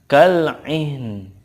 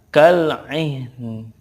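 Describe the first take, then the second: First: The word ends on a faint consonant. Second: The word ends on a faint consonant.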